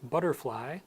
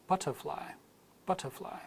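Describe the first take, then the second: First: Butterfly with a D-like T and an R; American flap T. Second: Butterfly with a crisp T and no R; British clear T. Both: Shown as a demonstration. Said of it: "both an American and British accent".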